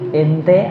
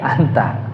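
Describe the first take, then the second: First: The vowels are colloquial, sounding like 'ente'. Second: The vowels are standard, sounding like 'anta'.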